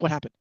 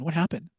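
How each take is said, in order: First: The question sounds sharp and accusing. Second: The question sounds gentle and concerned. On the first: The asker suspects the child did something wrong. "if I had been raising a boy, ... I'd probably be like" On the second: The asker worries about the child's wellbeing. "the girl might get the question"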